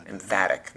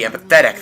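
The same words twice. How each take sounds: First: "Emphatic" said em-FAT-ic, with no -path- sound; corrected word. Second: Says "empathetic" with the -path- sound, em-PA-the-tic; the mistaken "empathetic", as if it meant emphatic; misused word. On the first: Boss correcting a thug's wrong word, "Emphatic". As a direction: correct him with a clipped "Emphatic". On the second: Thug misusing a word while briefing the boss, "empathetic". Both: Acted. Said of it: "not emphatic".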